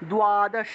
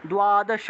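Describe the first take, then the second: First: It starts with a 'dw' or 'du' sound. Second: The same.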